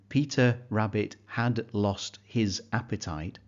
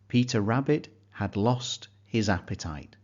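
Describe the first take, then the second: First: Each word is said separately, without linking. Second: The words are linked smoothly into a fluent flow. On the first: The speaker calls it wrong. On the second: The speaker calls it right.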